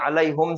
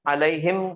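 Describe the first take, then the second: First: The vowel before the final m is 'oo'. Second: The vowel before the final m is 'ee'. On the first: This is the original form. "Original अलैहुम है वो" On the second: This form is easier to read aloud. "पढ़ने की आसानी के लिए"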